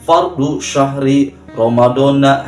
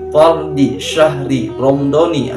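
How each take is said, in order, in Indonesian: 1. Kata-katanya tidak berakhir dengan vokal 'i'. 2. Kata-katanya berakhir dengan vokal 'i'. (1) "Banyak orang yang pelafalan niatnya begini" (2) "semuanya diidofatkan, ... tetapi ni kasrah ya"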